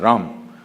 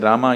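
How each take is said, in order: First: The final vowel is clipped off. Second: It ends with a full final vowel.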